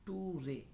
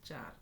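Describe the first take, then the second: First: It is said as two syllables, tu-re. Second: It is said as one syllable, cher. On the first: The speaker calls it wrong. "মূলত এখানে টু রে না" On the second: The speaker calls it right. "শব্দের উচ্চারণ হবে চার"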